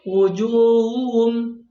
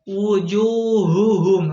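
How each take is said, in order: First: The H sound is weak and barely heard. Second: The H sound is pronounced clearly and audibly. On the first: The speaker calls it wrong. "Jangan sampai" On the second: The speaker calls it right. "harusnya jelas"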